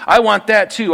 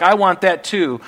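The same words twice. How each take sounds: First: Higher, louder grasping cry; mock covetous shout; greedy demand. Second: A hint of a grasping voice; mild mock covetous claim; greedy wanting. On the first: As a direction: push the want harder, nearly whining. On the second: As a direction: voice the flesh's craving, half-raised. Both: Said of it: "and like".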